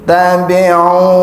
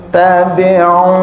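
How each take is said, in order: Both takes have the same delivery.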